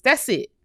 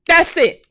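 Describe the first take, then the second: First: Said in the usual way. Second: High, loud final point; loud, fired-up "That's it"; emphatic loud insistence. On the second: Real, not acted. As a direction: slam the point home. Emphatic closing of list.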